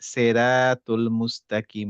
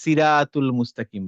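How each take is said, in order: First: The first syllable sounds heavy, like 'se'. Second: The first syllable sounds light, like 'si'. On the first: The speaker calls it right. "আপনি সে টাইপের একটু উচ্চারণ করতে পারেন" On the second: The speaker calls it wrong. "সি বললে কি হয়ে যাবে? তখন হয়ে যাবে সিন"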